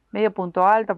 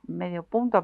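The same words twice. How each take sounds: First: "medio punto alto" with alto pushed louder; correcting herself, stress on alto. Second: Said in the usual way. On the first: Shown as a demonstration. Crochet teacher correcting the stitch name, stressing "alto". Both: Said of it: "porque si digo medio punto".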